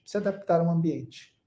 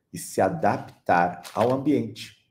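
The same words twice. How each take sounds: First: High echo. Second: Said in the usual way. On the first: Shown as a demonstration. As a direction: repeat "Se adaptar ao ambiente" much higher, "adaptar" stressed, falling at the end.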